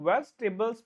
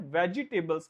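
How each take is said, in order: First: The middle vowel is dropped, giving fewer syllables. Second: The middle vowel is pronounced, giving an extra syllable. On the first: The speaker calls it right. "वेजिटेबल्स बोला जाता है" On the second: The speaker calls it wrong. "वेजिटेबल्स नहीं बोला जाता"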